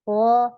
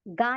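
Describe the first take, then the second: First: The syllable sounds heavy, with the tongue back raised. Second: The syllable sounds light and thin, like ga. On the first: The speaker calls it right. "इसको पढ़ेंगे गौ" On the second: The speaker calls it wrong. "अब आप इसे ऐसे नहीं पढ़ेंगी ... गा नहीं पढ़ना"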